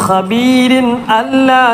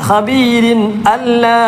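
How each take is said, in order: No difference in how they are said.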